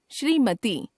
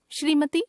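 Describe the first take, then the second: First: Said in the usual way. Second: श्रीमती ending on short "ti"; mispronounced final vowel. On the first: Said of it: "शुद्ध". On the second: Shown as a demonstration. Teacher showing a common error, श्रीमती with short final vowel. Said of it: "अशुद्ध".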